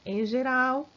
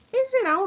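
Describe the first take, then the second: First: Said in the usual way. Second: "Em geral" launched high and loud; emphatic opener. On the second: Shown as a demonstration. Teacher opening a new rule to students, emphatic and loud.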